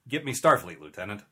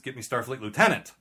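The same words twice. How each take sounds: First: There is a pause before Lieutenant. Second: Starfleet Lieutenant runs together without a pause. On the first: The lieutenant is asked to contact Starfleet. "But the line is" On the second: Someone asks to be connected to a Starfleet lieutenant. "Like, call the Starfleet Lieutenant for me"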